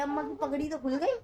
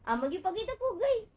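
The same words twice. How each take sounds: First: Said in the usual way. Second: Giggling, higher teasing singsong; playful laughing line, rising at the end; laughing tease. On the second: Real, not acted. Teasing baby about headwrap.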